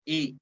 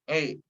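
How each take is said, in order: First: The vowel is a full, clear 'ee' sound. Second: The vowel drifts toward an 'eh' sound. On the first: The speaker calls it right. "dengan menjibirkan atau menurunkan bibir kita sejari" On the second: The speaker calls it wrong. "huruf I jadi tidak sempurna karena huruf I dibaca tidak terlalu turun"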